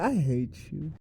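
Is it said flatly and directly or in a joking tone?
joking. It is said in a teasing, joking tone.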